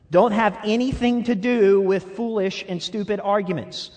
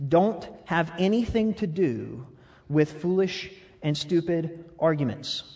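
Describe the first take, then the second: First: Laughing at himself as he rereads; amused self-rebuke, louder. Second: Said in the usual way. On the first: Shown as a demonstration. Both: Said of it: "I'm gonna read that again".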